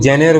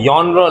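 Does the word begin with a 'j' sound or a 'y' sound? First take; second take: j sound; y sound. First: The word begins with a 'j' sound. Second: The word begins with a 'y' sound. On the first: The speaker calls it wrong. "इसको जेनेर वेनेर नहीं पढ़ना" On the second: The speaker calls it right. "यॉनर लिखा है"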